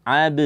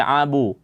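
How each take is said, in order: First: "ab" with a light neutral echo after b; correct thin bounce. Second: "abu" ending in a rounded oo; wrong thick bounce. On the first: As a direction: keep the rebound of "ab" thin and unrounded. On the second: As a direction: thicken the b's rebound in "abu". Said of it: "Jangan dibaca". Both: Shown as a demonstration.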